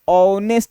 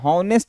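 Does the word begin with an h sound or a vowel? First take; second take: vowel; h sound. First: The word begins directly with a vowel sound. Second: The word begins with an h sound. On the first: The speaker calls it right. "ऑनेस्ट लिखते हैं" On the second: The speaker calls it wrong. "हॉनेस्ट नहीं"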